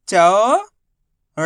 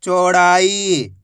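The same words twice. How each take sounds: First: चौड़ाई split into चौ, ड़ा, ई with pauses; syllable by syllable. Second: चौड़ाई as one slow word; syllables joined. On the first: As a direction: stretch चौ upward, then ड़ा and ई separately. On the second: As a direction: blend चौ, ड़ा and ई without pauses. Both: Shown as a demonstration. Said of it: "direct मात्रा का उच्चारण करके".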